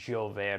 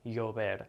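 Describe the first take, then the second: First: The ll is a thicker j sound. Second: The ll is a soft y sound. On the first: This is how it is said in Argentina or Spain. "It's more of a j sound" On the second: This is how it is said in Latin America. "like a the y sound"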